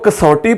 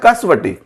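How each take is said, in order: First: The middle is said as one vowel, 'sau'. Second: The middle is said as 'sa-wa' with a w. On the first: The speaker calls it wrong. "इसको कसौटी पढ़ना गलत है" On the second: The speaker calls it right. "यह है कसवटी"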